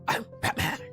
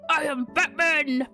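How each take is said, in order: First: The voice is deep and gritty. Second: The voice is deep but smooth. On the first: "But he's got like a gritty voice. I was like" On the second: "that's as deep as I could go"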